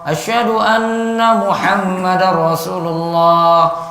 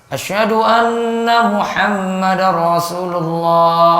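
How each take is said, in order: No difference in how they are said.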